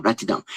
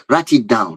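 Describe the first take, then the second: First: Write it down, dropped much softer; quieter aside. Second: Said in the usual way. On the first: Shown as a demonstration. Preacher telling listeners to take notes, dropping much softer. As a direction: softly repeat the instruction to yourself.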